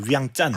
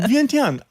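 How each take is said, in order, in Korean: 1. 이 이름은 된 'chan' 소리로 끝나요. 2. 이 이름은 'tian' 소리로 끝나요. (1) "원래 발음은 위앙짠이거든요" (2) "위엔티안 이래가지고 위엔티안으로 적어버린"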